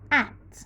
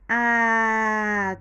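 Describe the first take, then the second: First: The sounds are blended quickly into one word. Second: The sounds are stretched out slowly and separately. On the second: "we stretch it very well"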